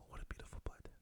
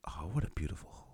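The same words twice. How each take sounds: First: Fading whispered golf call; golf commentator whisper. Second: Whispered golf commentary; golf commentator whisper. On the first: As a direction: barely breathe the words like a golf commentator. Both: Retold or imitated. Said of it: "what are you whispering for".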